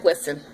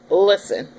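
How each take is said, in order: First: A calm, polite "Listen," with a falling close; retold polite "Listen". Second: A firm, slightly louder "Listen," with a falling close; "Listen" as a warning, out of patience; retold firm "Listen"; firm and fed up. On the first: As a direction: say "Listen" nicely, keeping the peace. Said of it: "I explained it nice, very calmly, very politely". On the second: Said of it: "Shaniqua is starting to pop out".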